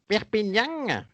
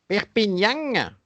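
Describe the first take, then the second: First: It is said in a southern French accent. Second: It is said in a southern French accent.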